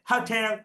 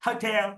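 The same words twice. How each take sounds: The two takes are said the same way.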